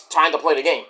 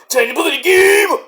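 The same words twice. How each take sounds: First: Said in the usual way. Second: [name] shouted high; announcer shout. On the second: Shown as a demonstration. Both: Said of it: "sung title repeated".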